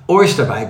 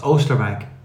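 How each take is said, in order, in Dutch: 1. De eerste klinker is een 'oy'-klank. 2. De eerste klinker is een lange 'oh'-klank. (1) "bestaat natuurlijk niet" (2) "het is Oosterwijk"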